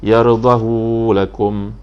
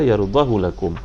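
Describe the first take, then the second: First: The vowel after the h is long. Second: The vowel after the h is short. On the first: "Isba' maknanya dipanjangkan, sini ada mat" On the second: "ikhtilas bunyinya di situ"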